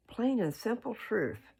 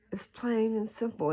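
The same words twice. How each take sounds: First: Said in the usual way. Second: Whispered, leaning in to make the point; emphatic whisper. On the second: Real, not acted. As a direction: breathe it out, intimate and sure.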